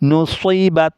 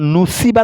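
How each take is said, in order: First: The s sound is heavy and emphatic. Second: The s sound is light and plain. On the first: The speaker calls it right. "সোয়াজে সিন নুসই" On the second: The speaker calls it wrong. "নুসিবাত বললে সিন হয়ে যাবে, মারাত্মক ভুল হবে"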